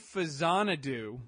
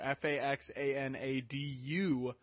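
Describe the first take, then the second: First: The middle consonant is a z sound. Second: The middle consonant is a ks sound. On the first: The speaker calls it right. "pronounce it Fazanadu" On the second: The speaker calls it wrong. "mistakenly known as Faxanadu"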